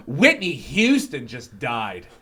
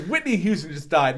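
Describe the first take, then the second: First: Imitating a horrified lady, slow and swooping; aghast announcement. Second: Said in the usual way. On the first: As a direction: drag out the shocking news in mock horror. Lady breaks shocking news mid-show.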